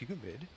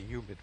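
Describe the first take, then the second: First: It starts with an H sound. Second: It starts with a Y sound, no H.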